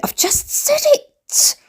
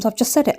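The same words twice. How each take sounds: First: Very high, slow strained whine; drawn-out squeaky self-annoyance; frustrated squeak. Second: Said in the usual way. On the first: Real, not acted. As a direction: squeeze it out in high exasperation. Frustrated repeat of forgotten word.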